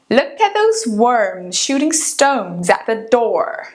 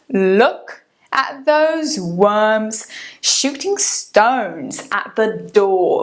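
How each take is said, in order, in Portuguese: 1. É falado com sotaque americano. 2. É falado com sotaque britânico. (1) "Vamos devagarzinho em americano primeiro" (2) "Agora em britânico"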